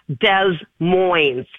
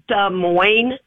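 First: The S sounds are pronounced. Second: The S sounds are silent. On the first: The speaker calls it wrong. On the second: The speaker calls it right.

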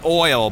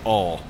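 First: The vowel is the 'oy' sound. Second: The vowel is the 'aw' sound. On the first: This is the speaker's own way of saying it. "I say oil" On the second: This is how many relatives say it. "a lot of people in my family that say all"

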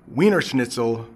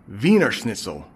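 First: Wiener begins with a W sound. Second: Wiener begins with a V sound.

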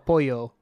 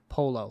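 First: The double L sounds like a Y. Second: The double L sounds like an L. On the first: This is the Spanish way of saying it. The speaker calls it wrong. "I actually ordered el pollo" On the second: This is the Italian way of saying it. The speaker calls it right. "they corrected me"

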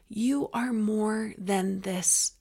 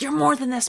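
First: It is said in a gentle, reassuring tone. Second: It is said in a harsh, scolding tone. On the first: There is something deeper inside that is more than the struggle. The speaker calls it right. "It's not that. To me, it's" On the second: It is a reprimand to just get up. The speaker calls it wrong. "the tone of this is not like"

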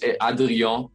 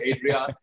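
First: The name is pronounced with French sounds. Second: The name is pronounced with English sounds. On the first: It sounds pretentious. "It's a French Adrian. Last name, but I sound like a little douchey and pretentious when I say it like that" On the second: It sounds casual and unpretentious. "So I just say Adrian"

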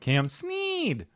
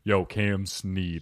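First: It is said in a nerdy voice. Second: It is said in a cool, casual voice.

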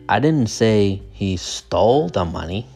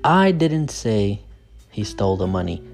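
First: The word 'stole' is stressed. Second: The word 'I' is stressed. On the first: He may have just borrowed it. "The stress is on stole" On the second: Someone else said it. "So the stress is on I"

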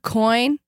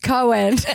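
First: The vowel is the usual 'oy' sound. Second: The vowel sounds like the name Cohen. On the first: The speaker calls it right. "She can't say the word coin" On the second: The speaker calls it wrong. "She says Cohen"

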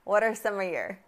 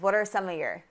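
First: The words are linked together in connected speech. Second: The words are linked together in connected speech.

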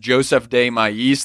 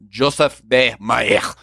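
First: The name is said with English sounds. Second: The name is said with French sounds. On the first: The speaker calls it wrong. "the way it looks like is Joseph de Maistre. That's how I say it" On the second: The speaker calls it right. "I looked up the pronunciation. It's like Joseph de Maistre"

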